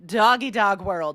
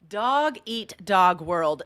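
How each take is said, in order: First: The t is dropped, sounding like doggy dog. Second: The t in eat is clearly pronounced.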